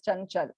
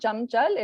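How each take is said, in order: First: The first nasal sounds like 'n'. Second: The first nasal sounds like 'm'. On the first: The speaker calls it right. "It is chanchal" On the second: The speaker calls it wrong. "It's not chamchal"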